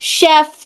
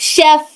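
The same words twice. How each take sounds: First: The f is made with upper teeth on lip. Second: The f is made with upper teeth on lip.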